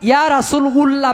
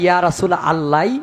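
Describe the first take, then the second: First: The last word begins with an 'u' sound. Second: The last word begins with an 'a' sound. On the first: The speaker calls it wrong. "বলা যাবে না" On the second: The speaker calls it right. "বলতে হবে"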